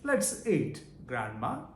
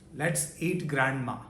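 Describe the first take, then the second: First: There is a pause before grandma. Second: It runs straight on with no pause before grandma. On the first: Grandma is being invited to eat. The speaker calls it right. "When he puts the comma, then it makes proper sense" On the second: Grandma is the thing to be eaten. The speaker calls it wrong. "The meaning changes"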